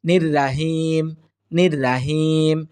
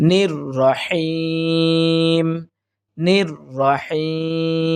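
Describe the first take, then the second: First: "নির রাহিম" with thin "raa" and light h; wrong pronunciation. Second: "নির রহিম" very slow, heavy "ro", long-held "heeem"; correct tajweed. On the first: Teacher showing how many of us read it, incorrect light pronunciation. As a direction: say "নির রাহিম" short, as "nir-raahim". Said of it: "কিন্তু এটা সম্পূর্ণটাই ভুল". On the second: Teacher modelling the three-alif stretch at verse end, careful tajweed. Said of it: "সহি হচ্ছে". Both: Shown as a demonstration.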